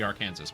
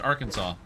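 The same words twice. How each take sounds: First: The name is said following its English spelling. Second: The name is said in its usual established way. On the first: "if you were in English, it would be Arkansas" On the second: "it's pronounced Arkansas"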